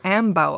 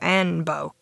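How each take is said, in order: First: The middle consonant is an m sound. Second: The middle consonant is an n sound. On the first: The speaker calls it wrong. "I called you Ambo every time" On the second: The speaker calls it right. "instead of Anbo"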